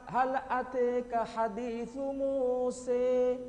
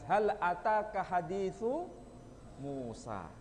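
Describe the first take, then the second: First: The name ends with a leaning e vowel. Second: The name ends with a clear a vowel. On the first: This is another accepted reading among the seven. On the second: This is the standard Arabic reading.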